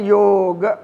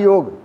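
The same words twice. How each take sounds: First: A light 'a' vowel follows the final consonant. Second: The word ends on the final consonant. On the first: This is the Sanskrit form of the word. "हल्का सा अ की आवाज़ के साथ पढ़ेंगे" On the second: This is the Hindi form of the word. "एक तो हिंदी में होता है योग, खाली योग"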